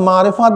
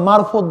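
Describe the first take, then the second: First: The word is said in its full form. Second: The word is said in a shortened form. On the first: The speaker calls it right. "আসলে অর্থ মারেফাত বলে না" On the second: The speaker calls it wrong. "মারেফাত শব্দ উচ্চারণ করার তো এলেম তাদের মধ্যে নাই"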